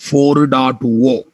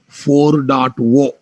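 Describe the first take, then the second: First: The final digit is said as oh. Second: The same.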